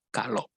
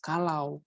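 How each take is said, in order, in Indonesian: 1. Kata itu diucapkan dengan cara santai yang direduksi. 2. Kata itu diucapkan dengan jelas dan penuh. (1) "di non formal, pembicaraan sehari-hari" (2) "di dalam formal itu harus jelas kalau"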